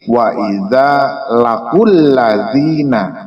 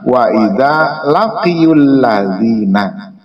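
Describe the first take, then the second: First: The verb is said without a y sound. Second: The verb is said with a y sound. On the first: The speaker calls it right. "sehingga menjadi lafadznya menjadi" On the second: The speaker calls it wrong.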